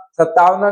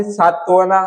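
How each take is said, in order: First: सतावना with the "aa" late: "sataavna"; misplaced long vowel. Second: Said in the usual way. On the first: Shown as a demonstration. Teacher showing a misspelt word, late long vowel in सतावना. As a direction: move the long "aa" to the second syllable, सतावना. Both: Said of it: "नहीं".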